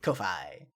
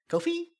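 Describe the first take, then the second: First: "Ko-Fi" said as ko-fai, low and falling, softer; settled pronunciation. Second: "Ko-Fi" said as ko-fee, with a high question rise; questioning pronunciation. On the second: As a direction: try "Ko-Fi" as ko-FEE, asking, pitch jumping way up. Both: Shown as a demonstration.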